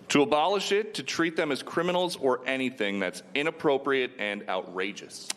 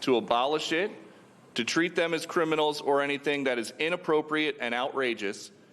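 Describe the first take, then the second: First: It is read without a pause in the middle. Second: It is read with a pause in the middle.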